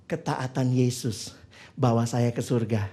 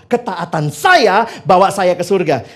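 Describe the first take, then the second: First: Ketaatan Yesus bawa saya ke surga said low, soft and slow; hushed and slow, dwelling on ketaatan; soft reverent truth. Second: Ketaatan saya bawa saya ke surga said loud and slow, stressing saya; proud, slow and louder, leaning on saya; self-reliant claim. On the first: Preacher states the true gospel softly and slowly. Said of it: "Kalau hidup begini". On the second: Preacher states the wrong gospel, loud and slow. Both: Shown as a demonstration.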